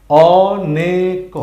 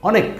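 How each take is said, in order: First: অনেক stretched very slowly and a bit louder; drawn-out reading. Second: Said in the usual way. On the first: Shown as a demonstration. Teacher to learners, stretching অনেক very slowly. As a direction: sound out অনেক slowly, holding each syllable. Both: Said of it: "তাহলে আমরা প্রথম লাইনে কি পেয়েছি?".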